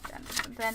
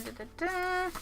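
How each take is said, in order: First: Said in the usual way. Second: Dun dun dun sung up high and soft; soft high suspense hum; higher dramatic sting. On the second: Pretend. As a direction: lift the sting up like a cliffhanger.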